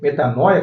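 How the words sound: It is said the way Portuguese speakers say it. "como nós podemos pronunciar, porque nós pronunciamos assim"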